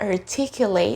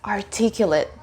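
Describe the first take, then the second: First: The ending has a long 'ay' vowel. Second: The ending has a weak, short vowel. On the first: It names an action. "Now let's have the verb" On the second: It describes a person. "that's an adjective in the sentence"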